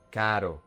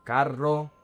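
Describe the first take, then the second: First: Caro with a single soft tap. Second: Carro with a long trilled rr; strongly trilled r in carro; rolled R. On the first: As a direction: flick the r lightly in caro, no trill. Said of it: "The R is a soft R". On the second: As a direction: roll your tongue through the rr in carro. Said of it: "if you roll your tongue". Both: Shown as a demonstration.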